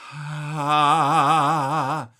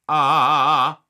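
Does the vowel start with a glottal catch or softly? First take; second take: softly; glottal catch. First: The vowel starts softly without a glottal catch. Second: The vowel starts with a sharp glottal catch. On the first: The speaker calls it wrong. "it's just more efficient than starting with ah" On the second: The speaker calls it right. "If you start with a coup de glotte, which is starting with your vocal folds together"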